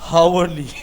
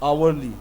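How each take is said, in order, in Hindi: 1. शब्द h की आवाज़ से शुरू होता है। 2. शब्द स्वर से शुरू होता है, h नहीं। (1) "मैं पता क्या पढ़ता था, हावरली ... I didn't know the correct pronunciation" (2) "इसको आवरली लोग पढ़ते थे"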